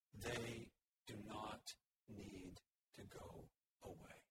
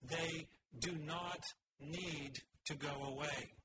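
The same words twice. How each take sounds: First: Slow, soft, weighty "not need"; emphatic not need. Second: "not need" pressed hard, slow and firm; bold emphasis. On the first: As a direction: lean gently on "not need", unhurried. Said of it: "not need" are drawn to the front". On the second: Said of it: "applying a bold font and maybe underlines". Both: Shown as a demonstration.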